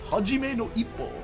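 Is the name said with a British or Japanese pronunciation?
Japanese. It is said with Japanese vowels. The speaker calls it right. "Because Japanese have like five vowel sounds"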